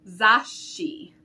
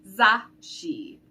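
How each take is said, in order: The two takes are said the same way.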